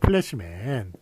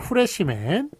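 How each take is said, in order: First: The word starts with a P sound. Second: The word starts with an H sound. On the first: The speaker calls it right. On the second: The speaker calls it wrong.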